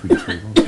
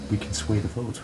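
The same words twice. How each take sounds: First: Much higher and louder, almost yelling; pleading shout. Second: Said in the usual way. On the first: Retold or imitated. Begging Boogie to fight the vote, in a sudden high shout. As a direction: burst out, pushing him hard to agree.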